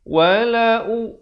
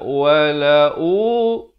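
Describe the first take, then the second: First: The vowel after wala is kept short. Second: The vowel after wala is held long. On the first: The speaker calls it right. "satu harakat" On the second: The speaker calls it wrong. "Jangan baca, ... Salah"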